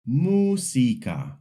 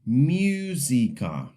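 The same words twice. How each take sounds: First: The first vowel is a pure 'oo' sound. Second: The first vowel sounds like English 'you'. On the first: The speaker calls it right. "the U is just U" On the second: The speaker calls it wrong. "pronounce the U like you, almost like music"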